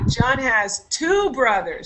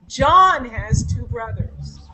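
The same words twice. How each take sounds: First: The stress is on two. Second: The stress is on John.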